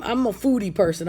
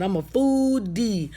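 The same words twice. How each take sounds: First: Said in the usual way. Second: FOO-DEE stretched slowly, syllable by syllable; drawn-out FOODIE. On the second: Real, not acted. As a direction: draw out both halves of "foodie". Repeats herself for emphasis.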